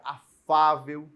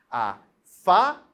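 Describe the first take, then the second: First: Said in the usual way. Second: "afável" split into syllables, FÁ punched loud; very slow "afável", loud drawn-out "fá"; stress on FÁ. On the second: Shown as a demonstration. Teacher showing the tonic syllable, heavy stress on "fá" in "afável". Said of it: "A sílaba tônica é a penúltima, é o fá".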